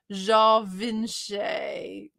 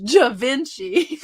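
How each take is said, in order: First: Ja Vinci as zhah-vin-SHAY, very slow; Ja Vinci French-style. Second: Southern Ja Vinci, slow "juh-VIN-chee"; Southern pronunciation. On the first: Slow French-style take before Southern one. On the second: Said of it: "Classic Southern". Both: Shown as a demonstration.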